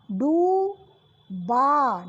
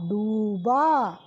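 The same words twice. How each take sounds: First: डूबा with a very slow long ऊ; slow drawn. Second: डूबा short, lower and falling; quick repeat. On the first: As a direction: stretch डूबा for the class. (डूबा को खींचकर) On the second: (डूबा जल्दी दोहराना) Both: Shown as a demonstration. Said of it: "डा पे बड़े ऊ की मात्रा लगी".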